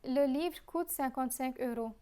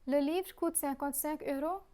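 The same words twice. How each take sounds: First: It is said with a statement intonation. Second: It is said with a questioning intonation. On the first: The speaker is confirming that it is so. "The only change observed is the intonation" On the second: The speaker is asking whether it is so. "I'll again repeat the question and answer. Note the change in intonation"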